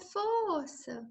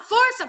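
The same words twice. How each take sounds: First: It is said softly and limply, without energy. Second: It is said loudly and firmly, with energy. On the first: The patient will push only a little. The speaker calls it wrong. "Se ficar assim, ai" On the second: The patient will push harder and harder. The speaker calls it right. "Se você olhar para ele, vamos lá"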